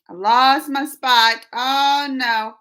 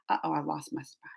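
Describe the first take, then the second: First: Louder and slow, drawn-out dismay; dismayed exclaim. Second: Low quiet muttering. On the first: To her stream chat, slow louder dismay at losing her spot. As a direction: announce the lost place to the chat. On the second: Reading comments on stream, she mutters on losing her place. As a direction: lower and softer, muttered to herself. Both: Real, not acted.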